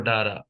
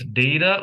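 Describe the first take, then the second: First: "data" with ah in the first syllable; dah-ta pronunciation. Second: "data" opening like the word day; day-ta pronunciation. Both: Shown as a demonstration. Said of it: "You all pronounce it as".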